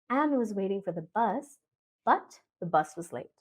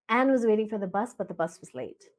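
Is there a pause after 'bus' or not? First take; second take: pause; no pause. First: There is a pause after the first 'bus'. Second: It is said in one stretch without pausing.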